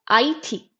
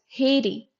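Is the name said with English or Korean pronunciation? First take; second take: Korean; English. First: The name is said with Korean pronunciation. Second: The name is said with English pronunciation. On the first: "And in Korean, it is Haiti" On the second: "In English, we call this Haiti"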